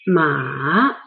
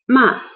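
First: The pitch dips low and then rises. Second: The pitch drops sharply from high to low. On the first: The word means horse. "The third, the transition tone" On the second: The word means to scold. "the fourth dropping tone is ma"

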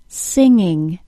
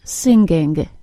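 First: The NG ends softly with no G sound. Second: The NG is followed by a hard G sound. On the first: The speaker calls it right. "I want to hear singing" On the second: The speaker calls it wrong. "not singing"

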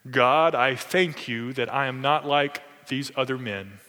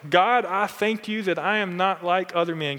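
First: It is said in a pompous, exaggerated prayer voice. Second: It is read in a plain, ordinary voice.

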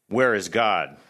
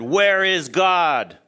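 First: It is said more sternly and louder. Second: It is said loudest, almost shouted.

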